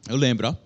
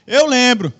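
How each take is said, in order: First: Much lower, offhand repeat; low-pitched aside. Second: Loud, emphatic declaration. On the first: Preacher repeats his claim to the listeners, as a low aside. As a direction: drop the pitch for a quick aside. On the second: Preacher claims to remember the history lesson, loud and emphatic. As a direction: announce it firmly at raised volume. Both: Shown as a demonstration.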